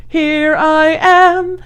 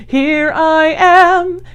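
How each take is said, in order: Both takes have the same delivery.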